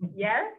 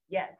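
First: The pitch rises upward. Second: The pitch stays high and level. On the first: The speaker is asking if it is really meant. "Do you really mean that? First from tone upward" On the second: The speaker is asking what was said. "High level job"

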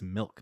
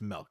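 First: The vowel sounds like 'ih' in milk. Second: The vowel sounds like 'eh', as in melk. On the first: The speaker calls it right. "it's milk with an I" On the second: The speaker calls it wrong. "said milk, like M-E-L-K for his whole life"

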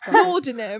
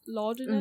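First: It is said in a put-on British accent. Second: It is said in the speaker's usual accent.

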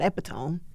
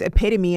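First: The word has three syllables, ending in a silent e. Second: The word has four syllables, ending in a sounded e. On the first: The speaker calls it wrong. "and not epitome" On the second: The speaker calls it right. "you know it's epitome"

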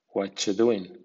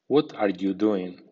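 First: The words are reduced and run together. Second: Every word is pronounced fully and carefully. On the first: "a continuación en versión informal o coloquial" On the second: "primero en estilo formal"

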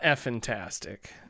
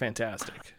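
First: An extra F sound comes before fantastic. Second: It is said as the ordinary word fantastic. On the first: The speaker calls it wrong. "it's not F-fantastic" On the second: The speaker calls it right. "I think it's pronounced fantastic"

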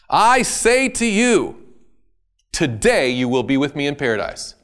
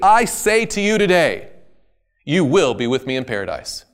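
First: The pause comes before the word today. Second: The pause comes after the word today.

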